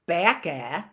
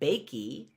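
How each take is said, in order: First: The word ends with an added uh sound. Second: The word ends with an added ee sound. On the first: "It's not bakey or or backa" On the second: "I don't pronounce it bakey"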